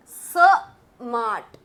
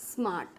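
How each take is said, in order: First: स mart broken in two, a loud स, a pause, then mart; split into parts. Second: Said in the usual way. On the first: Shown as a demonstration. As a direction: punch स alone, pause, then let mart fall. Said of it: "यानी कि पहला part". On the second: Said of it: "मैंने अगर लिखा smart".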